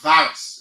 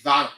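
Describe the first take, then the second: First: The word ends with an S sound. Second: The word ends with an L sound. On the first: The speaker calls it wrong. "many of you pronounce it as virus. It is quite, quite wrong" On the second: The speaker calls it right. "it should be viral"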